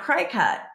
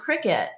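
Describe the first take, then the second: First: The word is said like 'cry-cut'. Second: The word is said like 'cricket'. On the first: The speaker calls it wrong. "for years, I was pronouncing that Cricut" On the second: The speaker calls it right. "it's actually pronounced cricket"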